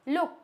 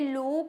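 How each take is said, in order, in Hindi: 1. स्वर छोटी 'u' ध्वनि है। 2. स्वर लंबी 'oo' ध्वनि है। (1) "इट्स लुक" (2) "क्या ये लूक होगा? नहीं"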